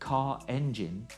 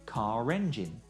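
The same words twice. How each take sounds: First: No r sound is heard between the words. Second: An r sound links the two words.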